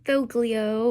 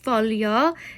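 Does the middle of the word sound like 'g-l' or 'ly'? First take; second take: g-l; ly. First: The middle consonants sound like separate 'g' and 'l'. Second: The middle consonant sounds like 'ly'. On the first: The speaker calls it wrong. "not foglio or something like that" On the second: The speaker calls it right. "Yes, foglio"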